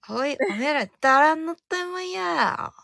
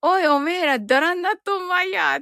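First: ダランナットンマイヤー with a high falling ラ; corrected dialect phrase. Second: Gruff rough dialect line; called out like a rough local; mock dialect phrase. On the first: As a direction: redo ダランナットンマイヤー with a sharper fall. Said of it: "あ、違う。". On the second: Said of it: "って言ってますね". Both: Shown as a demonstration.

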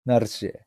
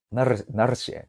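First: ナルシ with the ル strongly trilled; rolled r. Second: Said in the usual way. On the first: Shown as a demonstration. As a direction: roll the r in ナルシ like a tough guy. (巻き舌のナルシ) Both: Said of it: "と巻き舌でね".

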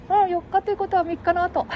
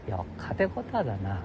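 First: Much higher teasing put-on voice; falsetto second voice. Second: Said in the usual way. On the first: Companion finishing his sentence, high teasing falsetto. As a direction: echo the line back in a high silly falsetto.

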